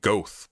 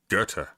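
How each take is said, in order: First: The name is read out following its spelling. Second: The name is said in the German pronunciation. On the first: The speaker calls it wrong. "It looks like it looks like Goethe" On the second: The speaker calls it right. "but it's Goethe"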